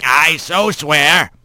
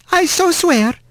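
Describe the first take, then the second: First: Put-on slow gravelly old bird; gravelly old man. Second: Small high chirpy wren; bright little bird witness. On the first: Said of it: "in that gravelly voice". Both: A narrator's reading.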